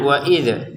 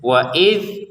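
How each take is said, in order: First: The final consonant is released with an added vowel. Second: The final consonant stops cleanly with no echo. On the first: The speaker calls it wrong. "jangan wa idza" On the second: The speaker calls it right. "tidak dipantulkan"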